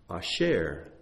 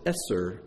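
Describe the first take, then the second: First: The word is said with an sh sound. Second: The word is said with an s sound. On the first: It means wealth. "if you pronounce it asher, it means wealth" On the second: It means a tithe. "If you pronounce it eser, it means tithe"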